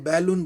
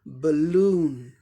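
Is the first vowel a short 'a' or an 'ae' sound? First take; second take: ae; short a. First: The first vowel is an open 'ae' sound. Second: The first vowel is a short 'a' sound. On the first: The speaker calls it wrong. "हम लोग बैलून बोलते हैं" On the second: The speaker calls it right. "इसका सही उच्चारण क्या होगा"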